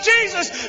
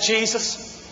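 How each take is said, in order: First: It is said loudly and with conviction. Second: It is said quietly and doubtfully.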